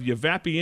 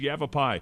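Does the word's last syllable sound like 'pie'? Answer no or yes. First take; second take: no; yes. First: The last syllable does not sound like 'pie'. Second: The last syllable sounds like 'pie'. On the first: The speaker calls it wrong. "he said" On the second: The speaker calls it right. "Yava and like a piece of pie"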